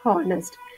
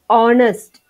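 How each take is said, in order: First: The word starts with an audible h sound. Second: The word starts with a vowel, h silent. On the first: The speaker calls it wrong. "and not honest" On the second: The speaker calls it right. "H O N E S T is pronounced honest"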